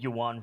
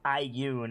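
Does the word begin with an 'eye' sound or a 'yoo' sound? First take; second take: yoo; eye. First: The word begins with a 'yoo' sound. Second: The word begins with an 'eye' sound. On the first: The speaker calls it wrong. "I've just said yuan for years" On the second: The speaker calls it right. "I think Gracie was right, is how you say it"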